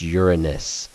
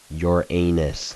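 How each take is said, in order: First: It begins with a sound like 'urine'. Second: It does not begin like 'urine'. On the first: The speaker calls it right. "it's almost like you're saying urine first" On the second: The speaker calls it wrong. "not Uranus, like all of you guys call it"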